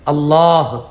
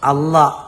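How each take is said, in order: First: The word ends with an audible final h sound. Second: The word ends without a final h sound. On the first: The speaker calls it right. "അവസാനം ഹ ഉണ്ടായിരിക്കണം" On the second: The speaker calls it wrong. "അത് തെറ്റാണ്, ശരിയല്ല"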